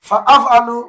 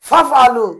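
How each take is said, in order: First: The glottal stop is clearly kept between words. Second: The glottal stop is dropped, words run together. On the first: The speaker calls it right. "এভাবে উচ্চারণ করতে হবে" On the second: The speaker calls it wrong. "এভাবে পড়া যাবে না"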